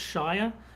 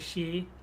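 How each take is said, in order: First: The word is said the way it is spelled. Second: The word is said with the British vowel. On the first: This is how the spelling looks to an outsider. "To me, that reads as Shire" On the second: This is how the British actually say it. "but they, they say sheer"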